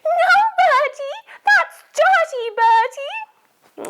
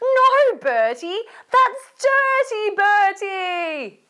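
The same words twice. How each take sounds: First: It is said in a put-on grandma voice. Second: It is said in the reader's normal voice.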